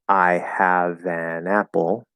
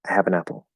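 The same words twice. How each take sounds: First: It is slow, with every word clearly enunciated. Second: It is fast, with unstressed words condensed together. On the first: "if I clearly enunciate" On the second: "when we're speaking quickly"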